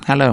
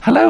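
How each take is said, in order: First: The greeting sounds stiff and businesslike. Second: The greeting sounds warmer and friendlier. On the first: The speaker calls it wrong. "it sounds too businesslike" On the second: The speaker calls it right. "That's nicer"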